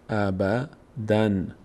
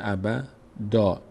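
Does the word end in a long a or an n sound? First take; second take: n sound; long a. First: The word ends with an n sound. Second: The word ends with a long a vowel. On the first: The word is read on without stopping. "اون دومی رو یک نون فرض میکنیم، اینجوری میخونیم ابدن" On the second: The reader stops at this word. "اگر اینجا وقف کردیم دیگه نمیشه ابدن، میشه ابدا، این نون تلفظ نمیشه"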